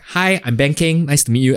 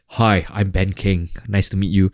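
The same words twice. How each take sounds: First: It is said in a colloquial Singaporean way. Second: It is said in a plain, formal way.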